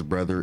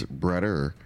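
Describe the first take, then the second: First: Said in the usual way. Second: Brother said with a d sound, like "brudder"; "brother" as Milwaukee says it, a d for the th; Milwaukee pronunciation. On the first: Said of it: "The way we pronounce brother is". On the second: Shown as a demonstration. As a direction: turn the middle of "brother" into a d. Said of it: "The way we pronounce brother is brother".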